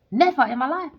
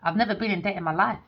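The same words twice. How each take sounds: First: Never in my life lifted higher and louder; insistent repeat stressing Never; emphatic repeat. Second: Said in the usual way. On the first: Real, not acted. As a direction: hammer home Never with a rising punch. Insisting she has no debt.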